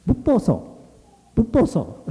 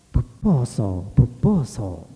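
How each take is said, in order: First: Very high, brisk name-call; friends calling out. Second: Sung, slow, lilting, drawn-out call; sung, let each call float out slowly; beautiful singing voice. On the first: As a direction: hail him in a high, piping voice. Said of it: "his friends began calling him". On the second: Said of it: "a beautiful voice singing". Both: A narrator's reading.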